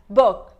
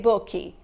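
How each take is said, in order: First: The word ends on a bare consonant sound. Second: An extra vowel sound follows the final consonant. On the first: The speaker calls it right. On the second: The speaker calls it wrong.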